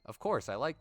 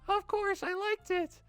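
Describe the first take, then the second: First: It is said in the reader's own voice. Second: It is said in a put-on Monika voice.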